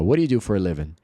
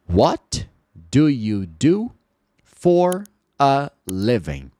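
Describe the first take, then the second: First: The words run together with sounds reduced. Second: Each word is said separately and carefully. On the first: "Você vai ouvir assim" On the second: "Se você falar pausadamente"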